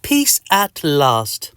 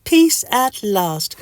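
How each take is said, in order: First: Very slow, savoured relief; relieved. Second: High, slow contented squeak; Mister Itch. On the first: Patient finally free of itching, slow relief. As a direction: stretch it out, satisfied. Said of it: "you say". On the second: Mister Itch lies in the sunshine, high slow contentment. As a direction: draw it out high and restful. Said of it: "says Mister Itch". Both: Acted.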